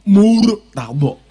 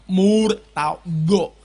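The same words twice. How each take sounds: First: Murtado with a heavy emphatic Arabic t, drawn out slowly and loudly; preacher shows the congregation the Arabic way to say Murtado; Arabic makhraj demo. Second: Murtado said very slowly with the lips pushed forward; preacher demonstrates rounded-lip Arabic Murtado to the crowd; lips-forward pronunciation. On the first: Loud slow Arabic pronunciation demo. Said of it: "Terus bonya mulutnya agak ke depan". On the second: Slow rounded-lip demo. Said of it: "Kayak gini". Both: Shown as a demonstration.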